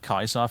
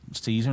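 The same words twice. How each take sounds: First: It is said the Roman way, starting with K. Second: It is said the English way, starting with S. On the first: "instead of Caesar" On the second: "saying Caesar"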